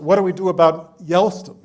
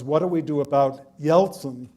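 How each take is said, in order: First: The name is pronounced Yelston, like Elston. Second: The name is pronounced the usual way, Yeltsin.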